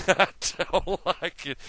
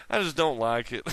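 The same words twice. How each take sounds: First: Amused, giggly repeat of I don't like it; laughing. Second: Said in the usual way. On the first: Real, not acted. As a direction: say it again with a chuckle in it.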